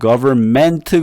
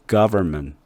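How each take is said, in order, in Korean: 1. 마지막 음절에 강한 강세가 있어요. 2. 마지막 음절은 약하고 강세 없이 발음해요. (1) "끄트머리 멘트에 액센트를 집어넣은 거나 마찬가지예요" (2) "이거를 약하게"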